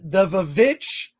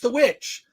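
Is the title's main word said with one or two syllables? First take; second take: two; one. First: The word is said with two syllables, starting 'vuh'. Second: The word is said with one syllable, starting 'w'. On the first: The speaker calls it wrong. "don't call it the Vavitch" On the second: The speaker calls it right. "it's the Witch"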